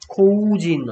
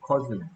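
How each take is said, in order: First: The first vowel sounds like 'oh'. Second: The first vowel sounds like 'uh'. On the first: The speaker calls it wrong. "코우진, 아니고" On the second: The speaker calls it right. "코우진이 아니고, 커즌"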